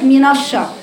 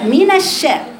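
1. صوت النون ثقيل وغليظ. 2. صوت النون رقيق وخفيف. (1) "وليست" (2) "المفروض النون رقيقه"

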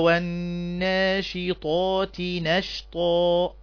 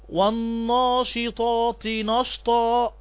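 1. النون خفيفة ورقيقة. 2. النون ثقيلة وغليظة. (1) "النون من حروف الترقيق" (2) "يخطئون في قراءة هذه الآية ... لا غلط"

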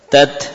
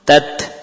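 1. T di akhir dilepaskan dengan desis. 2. T di akhir dilepaskan dengan desis.

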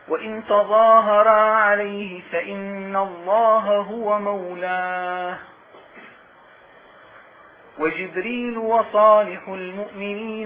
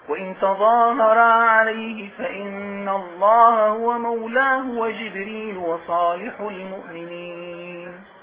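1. يوجد وقف مباشرة بعد 'mawlāhu'. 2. يتصل من 'mawlāhu' دون وقف. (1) "وقفنا تمام؟ وابتدأنا كلاما اخر" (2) "الآن قراءة وقف آخر"

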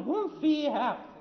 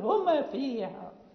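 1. الm مدغمة في الf التي بعدها. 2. الm تُنطق مع ارتداد وصدى. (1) "إذا لم ننتبه نقول هم فيها، يعني ندغم الميم" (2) "يقلقل الميم"

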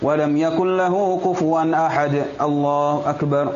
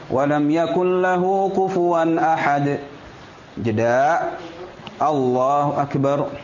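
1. Langsung tersambung tanpa jeda. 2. Ada jeda yang jelas sebelum frasa terakhir. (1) "jangan walam yakullahu kufuwan ahad. Allahu akbar, enggak"

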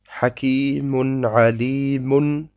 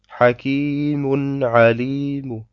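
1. Das letzte Wort endet mit einem vollen -un. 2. Das letzte Wort endet mit einem leisen -u. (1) "beim Weiterlesen" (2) "Wenn wir drauf stehen bleiben"

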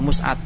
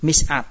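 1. Vokal pertama adalah u. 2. Vokal pertama adalah i. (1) "Makanya doma di situ" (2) "sesuai dengan kias"

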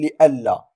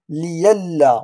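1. الحرف الأوسط همزة. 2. الحرف الأوسط صوته ياء. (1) "ولا نقول لألا" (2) "نقول ليلا"

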